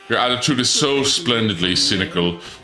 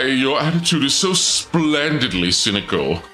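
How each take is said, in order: First: It is said in a plain voice. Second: It is said in a creepy voice.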